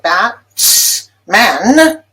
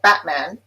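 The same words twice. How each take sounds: First: The T is fully released before man. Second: The T is replaced by a glottal closure. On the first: The speaker calls it wrong. "Usually we don't say Bat-man" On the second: The speaker calls it right. "we say Batman, and that T becomes glottalized"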